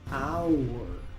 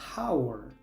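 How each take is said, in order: First: It starts with no h sound. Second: It starts with an audible h sound. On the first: The speaker calls it right. "aquí la H es muda" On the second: The speaker calls it wrong. "normalmente la H se pronuncia en inglés"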